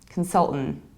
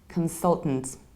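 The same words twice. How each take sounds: First: Both middle and final T are dropped. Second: The middle T sound is dropped. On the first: "skip the final T too" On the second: "skip middle T"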